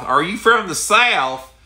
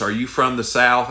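First: Southern drawl, much higher and louder, slow; mock-incredulous Southern drawl; exaggerated Southern drawl. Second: Said in the usual way. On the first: Shown as a demonstration. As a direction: ham up the Southern accent on "Are you from the South?". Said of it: "somebody that talks like this".

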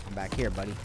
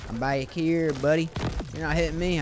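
First: Said in the usual way. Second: Put-on louder, higher southern accent taunt; playful southern accent. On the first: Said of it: "I don't know why I went with a southern accent". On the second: Player taunting the attacking enemy, in a southern accent. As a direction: throw on a bit of Southern twang. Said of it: "went with a southern accent on that".

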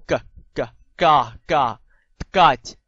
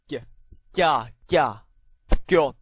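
First: G and Ga as plain hard "k, ka". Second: Ga said "kya", palatalized; soft K. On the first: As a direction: drill Ga slowly, spaced out, no glide. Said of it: "硬音". (硬音k，慢慢逐個讀Ga) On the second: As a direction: drill Ga and Got slowly with a y-glide. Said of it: "軟音G". (軟音k，Ga加耶音慢讀) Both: Shown as a demonstration.

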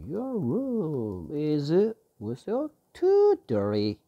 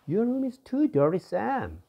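First: Slow drill reading. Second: Voiced high and bright as the complaining friend; a high, scolding friend's voice; high character voice. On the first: Shown as a demonstration. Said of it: "teacher slowly rebuilds the line". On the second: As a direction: pitch it way up for the friend's line. Teacher voices character A again.

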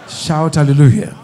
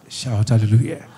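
First: Hallelujah shouted out loud to the church. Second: Said in the usual way. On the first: Real, not acted. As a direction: shout "hallelujah" with full force.

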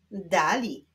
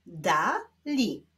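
First: Said in the usual way. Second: "Dali" as two detached syllables; separate syllables. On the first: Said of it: "musimy połączyć ze sobą sylaby". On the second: Shown as a demonstration. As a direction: leave a clear gap inside "Dali". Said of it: "łączymy sylabę żółtą z sylabą niebieską".

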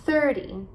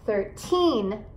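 First: THIRTY with the weight on THIR; THIR-dy, short light ending on THIRTY; stress on first syllable. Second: Put-on THIRTEEN with the weight on TEEN; thir-TEEN, long ending on THIRTEEN; stress on final syllable. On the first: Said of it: "enfatizar as sílabas no começo da palavra". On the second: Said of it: "você vai enfatizar as sílabas, eh, no final". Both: Shown as a demonstration.

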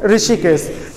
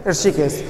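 First: ऋषिकेश starting with a plain "ri"; common mispronunciation. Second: ऋषिकेश with r running into sh; low, falling ऋषिकेश with no vowel after r; correct pronunciation. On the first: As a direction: say ऋषिकेश as "ri-shi-kes". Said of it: "बचपन से कौन सा शब्द सुनते". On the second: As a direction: say ऋषिकेश as "(h)r-shi-kes", low and soft. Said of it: "शुद्ध शब्द क्या है?". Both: Shown as a demonstration.

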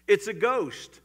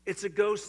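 First: Loud, higher mock-terrified shout; sudden alarmed outburst; frightened cry. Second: Loud, higher frightened shout, lightly acted; hammed-up scared disciples; cried out in fear. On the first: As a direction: call it out like scared fishermen. Disciples' cry in story. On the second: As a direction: cry it out in fear. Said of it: "and cried out in fear".

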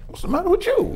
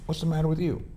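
First: Much higher and louder, firing the question back; mock angry retort. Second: A hint of the wife's irritation, pitched higher; wife's irritated question. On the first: Husband snapping back at his wife in a retold fight, mock angry. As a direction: throw her words back at her, hammed-up. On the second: Wife confronting husband who came home scowling, mildly irritated. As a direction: ask it like a mildly annoyed wife.

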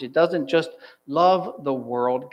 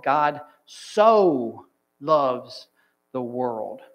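First: Slow line leaning on "love"; weight the word "love" to set up a contrast; deliberate LOVE after "doesn't just"; stress on LOVE. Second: Huge lingering SO with pauses after; stress on SO. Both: Shown as a demonstration. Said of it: "see how that word changes this passage".

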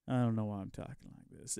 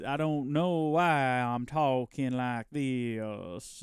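First: Said in the usual way. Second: Slow mock-solemn drawl on "why"; dragging each word out in a pompous drawl; slow drawn-out repeat. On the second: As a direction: repeat it very slowly, stretching "why".

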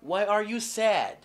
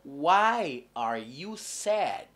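First: Said in the usual way. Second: Why are you sad drawn out very slowly, why stressed; teacher modelling why are you sad; very slow model question. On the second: Shown as a demonstration. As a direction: spell it out slowly for learners. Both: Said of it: "La question c'est".

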